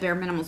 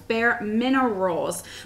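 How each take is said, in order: First: The second word is said as minimals. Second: The second word is said as minerals. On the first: The speaker calls it wrong. "I usually always say Bare Minimals" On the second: The speaker calls it right. "I said it right"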